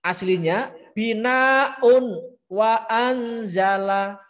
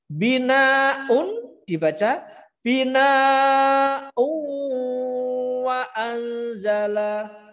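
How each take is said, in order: First: Binaun wa anzala drawn out slowly, the n fully clear; original reading. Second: Binaun wa anzala said slowly and much higher, the n kept clear; wrong reading. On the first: Teacher demonstrating the original reading, slow and raised. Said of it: "itu aslinya". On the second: Teacher demonstrating the wrong reading to students, high and slow. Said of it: "dibaca asli justru salah". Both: Shown as a demonstration.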